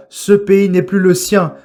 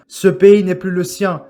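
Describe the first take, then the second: No difference in how they are said.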